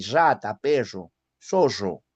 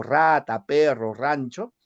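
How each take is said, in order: First: "rata", "perro", "zorro" with a strong rolled trilled rr; teacher demoing the highland rolled rr; sierra-style double R. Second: "rata", "perro", "rancho" with a plain coastal Lima rr; Lima-style double R. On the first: Teacher shows class her old Andean rolled R. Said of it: "pronunciaba así". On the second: Teacher contrasts her current Lima pronunciation. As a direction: say "perro" the way Lima speakers do now. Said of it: "ya no pronuncio de esa forma". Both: Shown as a demonstration.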